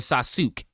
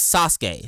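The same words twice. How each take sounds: First: The 'u' before 'ke' is fully pronounced: Sa-su-ke. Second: The 'u' before 'ke' is silent: Sas-ke. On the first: The speaker calls it wrong. "You don't say" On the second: The speaker calls it right.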